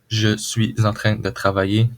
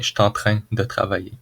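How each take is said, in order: First: Every word is pronounced fully and carefully. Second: Some words are shortened in a relaxed way.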